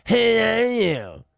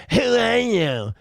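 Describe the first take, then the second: First: Very slow, higher, put-on sneering "Who are you?"; mocking quote. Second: Slow, higher sneering "Who are you?"; mocking quote. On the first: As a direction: stretch "Who are you?" like a snooty protester. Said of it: "Who gives a shit?". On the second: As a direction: drag out "Who are you?" in mock disdain. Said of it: "Like you're gatekeeping who can cover".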